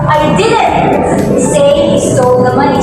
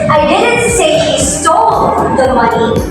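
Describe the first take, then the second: First: The word didn't carries the stress. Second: The word stole carries the stress. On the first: The speaker denies ever saying it. "put the emphasis or the stress on the word didn't" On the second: He may have taken it without stealing. "the word is stole"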